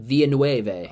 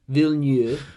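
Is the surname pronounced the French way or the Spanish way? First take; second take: Spanish; French. First: The surname is pronounced the Spanish way. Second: The surname is pronounced the French way. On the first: The speaker calls it wrong. "I thought maybe his last name was Spanish instead of French" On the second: The speaker calls it right. "which I used to say his name wrong for the longest time"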